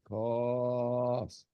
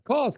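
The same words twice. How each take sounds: First: The word is drawn out slowly. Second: The word is said loudly. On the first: "let's say it slowly" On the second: "let's say it loud"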